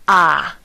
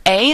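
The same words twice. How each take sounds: First: A said as an open "ah"; A as a pure Spanish "ah" vowel. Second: Said in the usual way. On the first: Shown as a demonstration. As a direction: say A like the ah for the doctor. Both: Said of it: "in Spanish is pronounced A".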